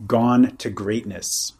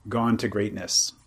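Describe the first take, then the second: First: Slow, weighty "gone to greatness"; slow quoting. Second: Said in the usual way. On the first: Shown as a demonstration. Teacher quoting a sutta phrase to his listener, slowly. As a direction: savour each word of "gone to greatness". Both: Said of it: "a nice idiomatic phrase they use".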